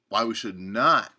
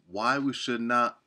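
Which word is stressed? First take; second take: Not; none. First: The word "not" carries strong emphasis. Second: The words are read evenly, without special emphasis. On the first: The speaker calls it right. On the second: The speaker calls it wrong.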